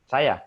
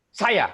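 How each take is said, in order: First: The word is said softly in a relaxed way. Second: The word is said forcefully with high energy. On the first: "kalau santai saja" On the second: "dalam kondisi tinggi"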